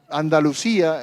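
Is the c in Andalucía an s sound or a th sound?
s sound. The c is pronounced as an s sound. This is how people from Buenos Aires say it. "nosotros decimos"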